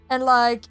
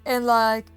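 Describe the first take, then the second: No difference in how they are said.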